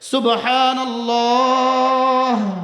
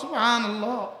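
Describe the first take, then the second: First: Said once with a pause, final h pronounced. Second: Said rapidly in one breath, final h dropped. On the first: The speaker calls it right. "ওয়াকফের সময় হা জজম হয়ে যাবে" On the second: The speaker calls it wrong. "আমি পড়ি এক নিঃশ্বাসে চারবার"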